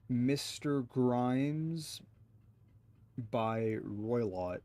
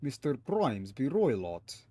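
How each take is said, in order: First: Slow broken "Mister Grimes by Roylott", syllable by syllable; halting first read of "Grimes by Roylott"; sounding out name. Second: "Mister Grimes by Roylott" joined up, stress on Grimes; smoother retry. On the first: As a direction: puzzle out "Grimes by Roylott" slowly. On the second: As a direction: say "Grimes by Roylott" as one name. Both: Shown as a demonstration. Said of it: "Yeah, I don't see it".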